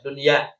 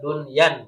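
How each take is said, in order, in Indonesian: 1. Kata "dunya" berakhir dengan vokal biasa, tanpa n di akhir. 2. Kata "dunya" berakhir dengan bunyi n tambahan di akhir. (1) "tanpa dengan hamzah, bila tanwin, tanpa ditanwinkan" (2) "bukan dunyan"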